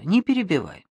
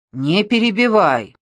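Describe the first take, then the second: First: Said in the usual way. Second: Raised, louder scolding; higher, forceful, out of patience; exasperated rebuke. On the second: A narrator's reading. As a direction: cut off the interrupter sharply. Second rebuke, now exasperated.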